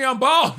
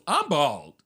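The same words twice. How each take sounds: First: High-pitched indignant protest; exasperated Larry David. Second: Lower, understated reply; imitated police officer. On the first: Retold or imitated. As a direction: imitate an aggrieved curmudgeon stating the obvious. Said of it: "And he's like". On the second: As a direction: play the unbothered officer, pitched down. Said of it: "The guy goes".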